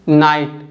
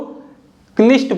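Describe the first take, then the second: First: The word starts without a k sound. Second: The word starts with a k sound. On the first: This is how the word is said today. "इसको आप क्या बोलोगे" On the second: This is how the word was said centuries ago. "कई सौ साल पहले ... इसको क्निस्ट बोलते थे"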